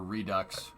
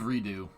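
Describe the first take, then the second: First: The word ends with a clear 'ks' sound. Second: The word ends on a vowel, no final 'ks'. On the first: "if I say Redux, everybody says you're saying it wrong" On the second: "if I say redo, everybody gets mad"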